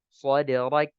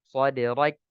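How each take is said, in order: Both takes have the same delivery.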